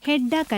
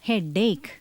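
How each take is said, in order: First: The second syllable ends with an 'ack' sound. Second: The second syllable ends with an 'ake' sound. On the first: The speaker calls it wrong. "ഹെഡാക്ക് അല്ല" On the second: The speaker calls it right.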